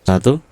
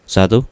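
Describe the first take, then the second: No difference in how they are said.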